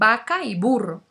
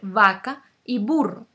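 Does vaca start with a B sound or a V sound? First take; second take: B sound; V sound. First: Vaca starts with the same sound as burro. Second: Vaca starts with a different sound from burro. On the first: The speaker calls it wrong. "mucha gente ya no utiliza estos cambios, dicen" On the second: The speaker calls it right. "en vez de decir"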